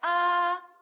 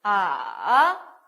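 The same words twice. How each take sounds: First: The pitch stays high and level. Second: The pitch dips down and then rises. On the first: "일성 어떻게 갔어요?" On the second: "이렇게 내려갔다가 이렇게 올라옵니다"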